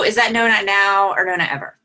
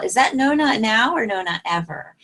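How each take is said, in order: First: It is said coldly, without a smile. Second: It is said warmly, with a smile. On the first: The listener feels pushed and shuts down. The speaker calls it wrong. "that's a whole different feel" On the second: The refusal is accepted without pressure. The speaker calls it right. "And say it with a smile"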